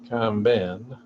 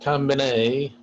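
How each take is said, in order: First: It ends in a short 'bin' sound. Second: It ends like the word combine. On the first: The speaker calls it right. "this combin" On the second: The speaker calls it wrong. "not combine"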